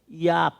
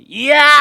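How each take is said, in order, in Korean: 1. 이 외침은 약하고 힘이 없어요. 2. 이 외침은 크고 힘이 넘쳐요. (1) "이러면 안 된다고" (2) "이래야 되는데"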